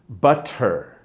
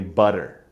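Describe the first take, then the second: First: The middle consonant is a clear T sound. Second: The middle consonant is a soft D sound. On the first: "B U T T E R phonetically is butter" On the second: "as an American, I take away those T's and I add a D"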